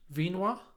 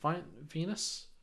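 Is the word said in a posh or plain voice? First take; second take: posh; plain. First: The word is said in an exaggerated posh voice. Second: The word is said in a plain, ordinary voice.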